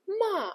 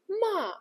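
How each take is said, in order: First: The pitch falls sharply downward. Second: The same.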